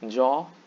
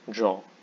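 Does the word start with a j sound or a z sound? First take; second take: j; j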